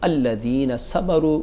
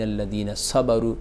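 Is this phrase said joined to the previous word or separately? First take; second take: separate; joined. First: It starts fresh after a breath, with its opening vowel. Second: It joins the previous word, dropping its opening vowel. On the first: "सांस तोड़कर अलग से उस आयत को पढ़ेंगे" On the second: "पिछले नून से हम सीधे लाम को मिला देंगे, अलिफ यहाँ पे साइलेंट हो जाएगा"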